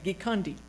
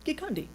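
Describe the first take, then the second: First: The name is said at a slower pace. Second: The name is said very quickly.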